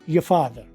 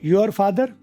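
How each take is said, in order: First: 'Your' is reduced to a short 'ya'. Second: 'Your' is pronounced in full.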